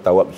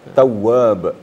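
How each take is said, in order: First: The middle w sound is short and single. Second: The middle w sound is held doubled. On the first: Just one who accepts repentance. The speaker calls it wrong. "kalau tawab saja, itu menerima taubat gitu aja" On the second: The One who always accepts repentance. The speaker calls it right. "itu artinya maha penerima taubat"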